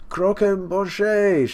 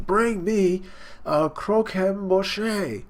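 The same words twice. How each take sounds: First: High, louder, very slow Croquembouche; drawn-out demand. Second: High, very slow, dragging out the word; drawn-out demand. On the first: Big Mom wailing for her cake, a louder drawn-out cry. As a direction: stretch Croquembouche out into a greedy wail. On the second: Big Mom craving her cake, a slow drawn-out demand. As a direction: stretch Croquembouche out long and pleading-hungry. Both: Retold or imitated.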